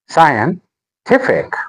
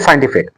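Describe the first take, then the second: First: The stress falls on the 'ti' syllable. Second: The stress falls on another syllable. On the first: The speaker calls it right. "The stress is on t" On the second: The speaker calls it wrong. "Don't say scientific"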